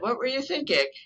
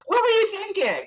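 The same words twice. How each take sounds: First: The tone is warm and curious. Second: The tone is sharp and accusing. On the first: The asker genuinely wants to know. The speaker calls it right. "I'm interested" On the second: The listener is being blamed. The speaker calls it wrong. "it's not"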